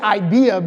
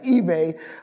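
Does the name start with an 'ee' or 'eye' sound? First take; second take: eye; ee. First: The name starts with an 'eye' sound. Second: The name starts with an 'ee' sound. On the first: The speaker calls it wrong. "I always want to say IBEA" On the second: The speaker calls it right. "but it's eBay"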